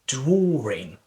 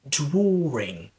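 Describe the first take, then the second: First: An R sound is inserted inside the word. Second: An R sound is inserted inside the word.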